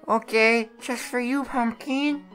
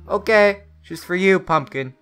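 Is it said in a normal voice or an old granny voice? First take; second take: granny voice; normal voice. First: It is said in an old granny voice. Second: It is said in a normal voice.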